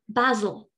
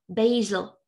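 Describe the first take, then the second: First: It is said in a British English accent. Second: It is said in an American English accent. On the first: "British English" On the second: "American English"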